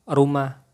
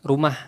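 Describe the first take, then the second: First: The word ends without a final h sound. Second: The word ends with an audible final h. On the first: "Nggak ada H-nya" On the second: "kalau ada H-nya jadi rumah"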